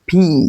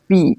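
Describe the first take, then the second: First: The p has a strong puff of air. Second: The p is plain, with no puff of air. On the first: The speaker calls it right. "এটা ফির মতো উচ্চারণটা হয়" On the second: The speaker calls it wrong. "কিন্তু এটা পি না বলে"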